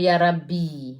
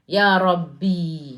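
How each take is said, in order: First: The r is said light and thin. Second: The r is said heavy and full. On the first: The speaker calls it wrong. "bukan ya rabbi" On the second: The speaker calls it right. "baca dengan tebal ra"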